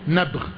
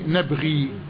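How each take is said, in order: First: The word ends on a consonant, without final 'ee'. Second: The word ends with a long 'ee' vowel. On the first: The reading pauses on this word. "هتقف يبقى إيه؟" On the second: The reading continues past this word. "لو هتوصل يبقى إيه؟"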